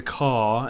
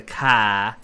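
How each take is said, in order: First: "car" with the r dropped, like cah; British car. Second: "car." with a full, clear r at the end; American car. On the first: Retold or imitated. Explaining rhotic accents, imitating a British "car". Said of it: "the British would say the". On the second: Shown as a demonstration. Contrasting American with British, saying "car." with the r. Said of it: "and we say the".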